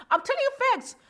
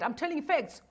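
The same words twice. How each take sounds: First: High, emphatic insistence; insisting. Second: Said in the usual way. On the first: Real, not acted. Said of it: "insisting on the truth". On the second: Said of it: "repeats the claim calmly".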